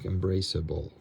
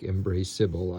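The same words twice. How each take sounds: First: The unstressed vowel is reduced to a schwa. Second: The unstressed vowel is a full 'I' sound. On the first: The speaker calls it right. "I like embraceable" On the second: The speaker calls it wrong. "I don't like embraceable"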